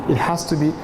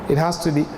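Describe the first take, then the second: The two takes are said the same way.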